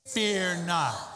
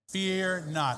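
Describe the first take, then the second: First: The phrase is said with more energy and force. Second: The phrase is said in a plain, even voice. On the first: "A little more enthusiasm" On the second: "Repeat that with me"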